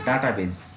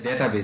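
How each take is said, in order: First: The first syllable has an open 'dah' vowel. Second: The first syllable has a 'day' vowel. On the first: The speaker calls it wrong. "আমরা ডাটা বলে ডাকি আর কি" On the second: The speaker calls it right. "শুদ্ধ উচ্চারণটা হচ্ছে ডেটাবেজ"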